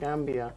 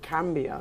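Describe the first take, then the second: First: The word begins with a G sound. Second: The word begins with a K sound. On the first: This is the usual name of the country. "not Gambia" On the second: This is the name the grandmother used. "a place called Cambia"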